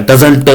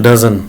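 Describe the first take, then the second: First: "doesn't" with a hard final t; wrong-way demo, "doesn't" ending in a stressed t; over-pronounced t. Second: "doesn't" with the final t dropped; lower, relaxed "doesn't", ending as "dazn"; unstressed ending. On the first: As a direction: hit the t at the end of "doesn't". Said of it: "Does not को doesn't नहीं बोलिएगा". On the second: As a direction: let "doesn't" fade out on the n. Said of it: "इस पे जोर देने की जरूरत नहीं है". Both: Shown as a demonstration.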